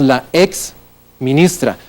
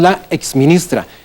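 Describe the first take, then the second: First: There is a short break after ex. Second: Ex runs straight into ministra without break. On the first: The speaker calls it wrong. "nosotros no decimos" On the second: The speaker calls it right. "lo unimos"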